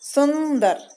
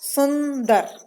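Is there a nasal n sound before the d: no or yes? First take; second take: yes; yes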